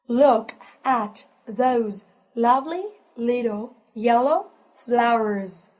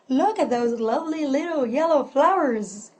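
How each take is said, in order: First: The sentence is spoken at a slow pace. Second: The sentence is spoken at a fast pace.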